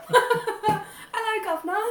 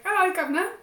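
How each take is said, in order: First: High, loud "Hello, Governor" breaking into laughter; laughing cockney. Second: Higher, louder cockney "Hello, Governor" with a rising end; mock cockney. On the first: Retold or imitated. Trying the cockney again through her own laughter. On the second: Imitating the host's cockney with a chirpy "Hello, Governor". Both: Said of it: "Dave Anthony's is like".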